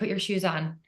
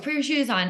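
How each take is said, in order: First: It is said calmly at a normal volume. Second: It is said louder with a raised voice. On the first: The parent is still being patient. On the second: The parent's patience is running out. "you start raising your voice"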